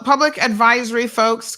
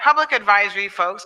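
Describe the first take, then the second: First: It is said in a plain everyday speaking voice. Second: It is said in a loud, booming announcer voice.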